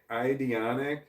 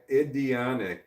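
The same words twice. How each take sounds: First: "Idionic" opened with a long i, like "eye"; long-i reading. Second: "Idionic" opened with a short i, as in "it"; short-i reading. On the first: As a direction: say "Idionic" starting "eye-dee", rising at the end. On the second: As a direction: say "Idionic" starting "id-ee", ending on a fall. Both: Shown as a demonstration. Trying out an unfamiliar username.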